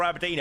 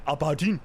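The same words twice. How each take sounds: First: Said in the usual way. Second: Dodgy Scottish Aberdeen accent; poor Aberdeen accent. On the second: Shown as a demonstration. Streamer showing off his poor Aberdeen accent. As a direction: attempt an Aberdeen accent, badly. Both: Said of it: "Poor Aberdeen accent".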